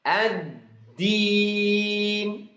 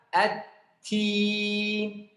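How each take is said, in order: First: The consonant is a strong, clear d sound. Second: The consonant is a weaker t sound. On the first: The speaker calls it right. "Harus dibaca ad-din" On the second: The speaker calls it wrong. "seperti huruf ta"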